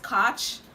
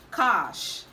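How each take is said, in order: First: It ends with a ch sound. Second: It ends with an sh sound. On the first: The speaker calls it wrong. "This word is commonly pronounced catch" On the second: The speaker calls it right. "the right to pronounce this word is cash"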